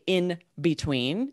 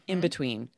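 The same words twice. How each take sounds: First: The word 'in' ends with a clear N sound. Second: The word 'in' ends with an M sound. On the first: The speaker calls it wrong. "We don't say in between" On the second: The speaker calls it right. "It becomes an M. It's like in between"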